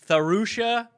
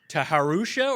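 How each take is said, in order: First: It starts with a single blended th sound. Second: It starts with a hard T, then an H.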